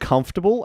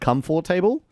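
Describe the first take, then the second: First: The word is said smoothly with reduced syllables. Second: The word is split into separately stressed syllables. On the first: The speaker calls it right. "instead of saying comfortable" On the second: The speaker calls it wrong. "I like broke it down into syllables and accented it apparently"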